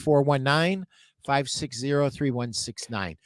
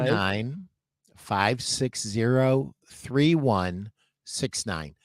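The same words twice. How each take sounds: First: The number is said quickly. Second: The number is said slowly.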